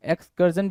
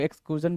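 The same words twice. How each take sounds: First: एक्सकर्जन with a short "kur" syllable, ex-KUR-jun; alternative pronunciation. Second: एक्सक्रूजन with a long "oo", ex-KROO-jun; alternative pronunciation. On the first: Teacher showing students another accepted form, pronouncing एक्सकर्जन with "kur". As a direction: say एक्सकर्जन with the r closing the middle syllable. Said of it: "भी बोलते हैं कुछ लोग". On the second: Teacher showing students the other accepted form, pronouncing एक्सक्रूजन with "kroo". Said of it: "भी बोलते हैं". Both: Shown as a demonstration.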